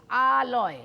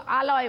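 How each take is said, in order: First: আলয় with the opening আ lengthened; drawn-out first syllable. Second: Said in the usual way. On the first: Shown as a demonstration. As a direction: linger on আ, then close লয়. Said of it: "আমার সঙ্গে সঙ্গে উচ্চারণ করলে". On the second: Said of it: "একটা তো আলয় বলছি".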